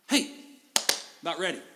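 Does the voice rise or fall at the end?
fall. It falls at the end like a statement.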